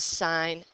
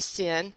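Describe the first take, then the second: First: The vowel is long, like in 'sign'. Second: The vowel is short, like in 'sin'. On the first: The speaker calls it right. "We just abbreviate the sine of angle A as sine A" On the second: The speaker calls it wrong. "please don't say sin"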